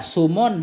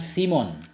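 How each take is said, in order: First: The vowel after the s is u. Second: The vowel after the s is i. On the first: "dengan dhammah sin" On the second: "kasrahnya sin"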